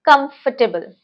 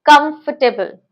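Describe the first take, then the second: First: The middle 'for' syllable is short and reduced. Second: The middle 'for' syllable is short and reduced.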